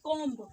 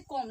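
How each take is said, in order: First: The word ends with an audible b sound. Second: The word ends without any b sound. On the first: The speaker calls it wrong. "ना कि कॉम्ब" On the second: The speaker calls it right. "इसे कॉम्ब ना कि कॉम्ब। इसमें ये जो बी होता है ना वो साइलेंट होता है"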